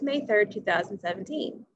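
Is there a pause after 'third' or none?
none. The day and the year run together without pause. "If there's no comma"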